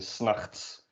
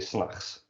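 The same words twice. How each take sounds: First: The T sound is clearly pronounced. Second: The T sound is left out. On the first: "doesn't usually get pronounced like that" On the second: "you drop the T"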